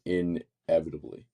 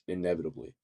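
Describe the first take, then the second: First: The word is said slowly, each syllable drawn out. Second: The word is said quickly, with a clear N. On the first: The speaker calls it wrong. "Right now you're saying inevitably, and that's probably sounding weird" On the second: The speaker calls it right. "say it quickly, it's it's inevitably, which you kind of pronounce more that N"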